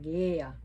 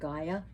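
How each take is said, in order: First: The name is said the Greek way. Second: The name is said the Western way. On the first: "in Greece it's more like Gaia" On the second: "the Western world likes to pronounce the name Gaia"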